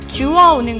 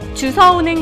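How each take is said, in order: First: The middle sound is a w sound. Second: The middle sound is an s sound. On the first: The speaker calls it right. "주어입니다" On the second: The speaker calls it wrong. "주서가 아니라"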